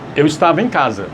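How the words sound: It is said with statement intonation. It states a fact.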